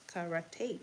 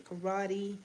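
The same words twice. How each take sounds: First: "Karate" said as ka-ra-TAY; alternative pronunciation. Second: "karate" said as kuh-RAH-dee; alternative pronunciation. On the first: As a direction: end "Karate" on a clear "tay". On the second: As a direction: end "karate" on a "dee" sound. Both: Shown as a demonstration. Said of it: "however you pronounce it".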